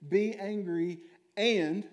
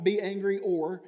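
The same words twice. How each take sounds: First: And drawn out slowly, higher and louder; stress on and. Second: Or said higher and louder as the wrong reading; contrast with or. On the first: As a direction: lean on the word and. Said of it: "it is a point in the verse". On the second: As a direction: set or against and. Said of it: "it's not". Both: Shown as a demonstration.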